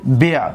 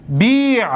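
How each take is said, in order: First: بیع short and low, bi' closed on ayn; ya dropped. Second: بیع higher, with long ii before the closing ayn; two sakins meeting. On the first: Teacher giving the finished imperative, short bi'. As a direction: cut the vowel short in بیع. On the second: Teacher showing two vowelless letters meeting, long ii. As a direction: stretch the ii in بیع, then close on ayn. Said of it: "در این بیع التقای". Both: Shown as a demonstration.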